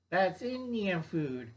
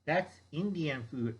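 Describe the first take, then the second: First: That's Indian food said slower with more weight on That's; That's Indian food repeated slowly with weight; slower emphatic repeat. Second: Said in the usual way. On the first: Shown as a demonstration. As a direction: lean into That's and draw it out.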